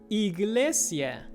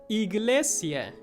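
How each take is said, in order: The two takes are said the same way.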